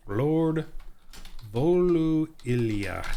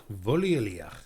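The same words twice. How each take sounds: First: "Lord Volu Iliach" proclaimed slowly, each syllable held; grand slow announcement. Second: Said in the usual way. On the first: Shown as a demonstration. Game master unveils the new lord's name, slow and grand.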